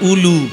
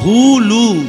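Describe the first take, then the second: First: The word begins directly with a vowel. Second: The word begins with an h sound. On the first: The speaker calls it wrong. "আর আমরা বলি উলু" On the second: The speaker calls it right. "বইতে লেখা আছে হুলু, হ হ হুলু"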